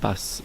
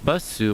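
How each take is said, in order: First: The final u vowel is dropped or whispered. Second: The final u vowel is clearly voiced.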